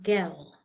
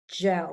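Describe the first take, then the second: First: The word begins with a hard G sound. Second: The word begins with a soft J sound. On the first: The speaker calls it wrong. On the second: The speaker calls it right. "like a J"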